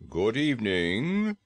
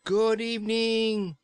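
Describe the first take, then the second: First: Slow, measured frog-man greeting; a lightly voiced dignified frog saying hello; polite frog bidding good evening; Frogman greeting. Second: Slow, high, loud shout into his ear; yelled greeting. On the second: Acted. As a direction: yell it so a deaf man hears. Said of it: "she yelled as loudly as she could".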